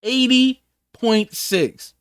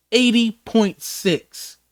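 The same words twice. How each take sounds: First: Eighty point six again, slow and deliberate; repeated slow emphasis. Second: Eighty point six, slowed right down and weighed; slow, heavy stress. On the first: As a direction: repeat it slowly so it sinks in. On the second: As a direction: let eighty point six land slowly, each word apart. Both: Shown as a demonstration.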